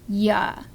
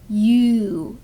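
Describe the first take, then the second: First: The word has a reduced, weak vowel. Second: The word has a full oo vowel. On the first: The speaker calls it right. "it goes ya" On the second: The speaker calls it wrong. "it doesn't go you"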